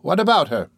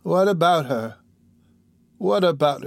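First: Higher-pitched, pressing question; impatient. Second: Higher-pitched, wandering echo of the question; drowsy sick woman. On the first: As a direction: press her impatiently for the answer. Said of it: "said the impatient auditor". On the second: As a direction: repeat it as if drifting off, groping for the memory. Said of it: "relapsing into her former drowsy state". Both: Acted.

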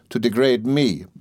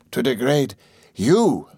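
First: Said in the usual way. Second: Slow, drawn-out disbelief on YOU; higher, slow mock astonishment; incredulous echo. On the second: A narrator's reading. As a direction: throw it back as a scornful question, higher and stretched. Master incredulously echoes his assistant.

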